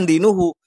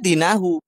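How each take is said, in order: First: The vowel after the n is 'u'. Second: The vowel after the n is 'a'. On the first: The religion is the subject of the verb. The speaker calls it wrong. "bukan dinuhu" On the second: The religion is the object of the verb. The speaker calls it right. "Seharusnya dinahu"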